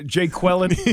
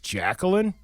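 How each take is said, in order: First: The name begins with the sound 'jay'. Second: The name begins with the sound 'jack'. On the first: The speaker calls it wrong. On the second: The speaker calls it right.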